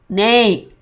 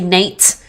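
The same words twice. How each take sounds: First: The final t is held and not released. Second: The final t is clearly released. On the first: "You don't really hear" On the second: "unless I'm enunciating"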